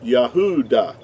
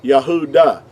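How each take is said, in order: First: The middle of the word has a U sound. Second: The middle of the word has a U sound.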